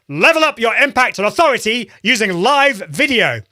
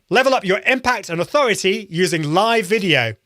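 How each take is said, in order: First: It is said with very high, projected energy. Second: It is said with high, lively energy.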